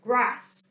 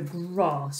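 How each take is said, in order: First: It is said in a northern English accent. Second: It is said in a non-northern English accent.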